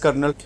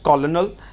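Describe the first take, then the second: First: It is said like kernel, in two syllables. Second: It is said as ko-lo-nel, in three syllables. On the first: The speaker calls it right. "It is pronounced as कर्नल" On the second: The speaker calls it wrong. "I यूज़ to think that it's pronounced कॉलोनल"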